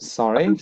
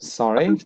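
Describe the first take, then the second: First: The stress is on the second syllable. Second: The stress is on the second syllable.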